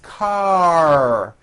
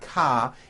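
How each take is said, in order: First: The word ends with a strong R sound. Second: The word ends on an open vowel, no R. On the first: The speaker calls it right. "Your tongue has to pull back. The R needs to be very strong" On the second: The speaker calls it wrong. "ending with an A vowel, but it's not ka"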